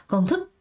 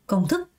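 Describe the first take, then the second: The two takes are said the same way.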